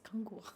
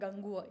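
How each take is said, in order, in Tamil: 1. அந்தச் சொல் கடினமான K ஒலியில் தொடங்குகிறது. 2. அந்தச் சொல் மென்மையான G ஒலியில் தொடங்குகிறது. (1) "it is கங்குவா. கே ஏ கங்குவா" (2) "not கங்குவா"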